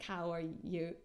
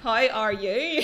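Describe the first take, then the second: First: It is said in a neutralized accent. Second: It is said in a Northern Irish accent. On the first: "I changed it to like" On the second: "those are like both really Northern Irish"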